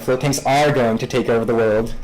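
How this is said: It is said as a combative, challenging rebuttal. The claim answers someone who doubted it. "it's much more like a challenge or you're like a rebuttal to someone"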